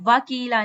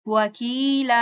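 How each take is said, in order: First: The w is said with unrounded lips. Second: The w is said with fully rounded lips. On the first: The speaker calls it wrong. "वकीला नहीं पढ़ना" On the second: The speaker calls it right. "वा पूरे होंठों को गोल करें"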